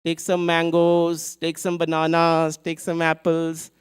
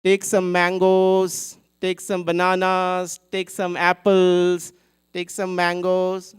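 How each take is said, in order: First: Lighter, slower vendor's call; calling out fruits. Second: Loud, slow vendor's call; calling out fruits. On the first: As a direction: hawk the fruit again as she walks. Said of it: "And she moves on". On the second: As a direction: hawk your fruit to the crowd. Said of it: "she's calling out to everybody". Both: Acted.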